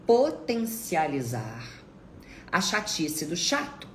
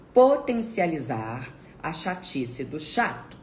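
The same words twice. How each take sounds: The two takes are said the same way.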